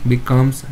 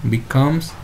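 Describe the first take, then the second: The two takes are said the same way.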